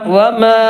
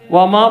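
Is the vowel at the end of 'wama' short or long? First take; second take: long; short. First: The final vowel is drawn out longer. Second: The final vowel is held only briefly. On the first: The speaker calls it right. "ഒന്നുകൂടി നീട്ടണം" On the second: The speaker calls it wrong. "വമാ പോരാ"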